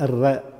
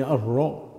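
First: "الراء" with a light front vowel, like "ar-rae"; thinned ra. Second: "الراء" with a dark backed vowel, like "ar-ro"; heavy ra. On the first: Teacher showing the mistake, light ra. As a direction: keep "الراء" thin, without rounding. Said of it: "بعضهم يرققها". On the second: Teacher showing the correct letter, heavy ra. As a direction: fill out the r of "الراء". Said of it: "مفخمة". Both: Shown as a demonstration.

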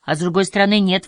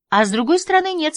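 First: Said in the usual way. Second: «А с другой стороны» much higher, teasing sing-song; mocking echo. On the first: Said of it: "возразил Март". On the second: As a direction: echo his words back high and playful. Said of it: "согласилась она". (передразнивая, высоким голосом)

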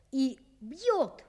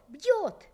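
First: Said in the usual way. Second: Бьёт said higher and harder; emphatic repeat. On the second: A narrator's reading. Narrator stressing the beating, emphatic. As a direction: punch the second бьёт.

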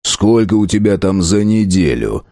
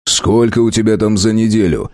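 First: Mock sternness. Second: Said in the usual way. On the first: A narrator's reading. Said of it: "с напускной суровостью". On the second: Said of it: "поинтересовался Тузик".

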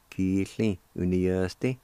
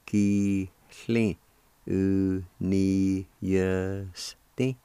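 First: "Ki-hli U-ni-yes-ti" flowing as two words; joined-up pronunciation. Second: "Ki, hli, U, ni, yes, ti" held syllable by syllable; slow sounding-out. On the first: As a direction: blend "Ki, hli, U, ni, yes, ti" without syllable breaks. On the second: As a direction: teach "Ki-hli U-ni-yes-ti" in slow separate pieces. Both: Shown as a demonstration.

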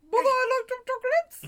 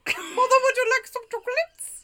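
First: High Gump imitation, a bit laughing; Forrest Gump voice. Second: High, laughing Gump imitation; Forrest Gump voice. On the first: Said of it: "it sounded just like that". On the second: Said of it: "It was Forrest Gump".

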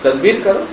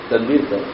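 First: تدبیر کرو raised high with a rising end; emphatic urging. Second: تدبیر کرو dropped low and much softer, falling; gentle repeat. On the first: Preacher pressing listeners to act, emphatic rising plea. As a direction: lift کرو up like a pressing appeal. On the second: Preacher repeating the advice to listeners, soft and gentle. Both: Shown as a demonstration. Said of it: "پیار سے کہا".

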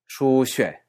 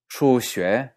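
First: Shuxue with the tone falling at the end; contrasting tones. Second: Shuxue with the tone rising at the end; contrasting tones. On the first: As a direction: say shuxue letting the end drop. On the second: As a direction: say Shuxue lifting the end upward. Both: Shown as a demonstration. Teacher contrasting the tones of shuxue. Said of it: "Si uno dice shuxue".

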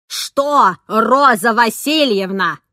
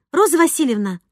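First: Loud, slow, booming echo of the name; nanny thundering at the tutor; thundering retort. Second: Higher-pitched, pointed address; challenging. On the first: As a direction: boom it back angrily. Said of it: "грохнула та в ответ". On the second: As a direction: throw the name out as a question. Tutor challenges the nanny by name. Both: A narrator's reading.

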